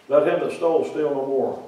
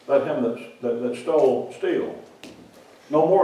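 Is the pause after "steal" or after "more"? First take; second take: after more; after steal. First: The pause comes after "no more". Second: The pause comes after "steal".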